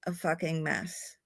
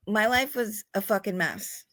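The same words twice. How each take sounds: First: A softer, firmer repeat; quiet emphatic repeat. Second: Said in the usual way. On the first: Real, not acted. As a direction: drop the voice and lean on it. Repeats it for weight.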